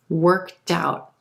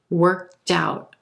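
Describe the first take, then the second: First: The T sound links into the next word. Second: The T sound links into the next word.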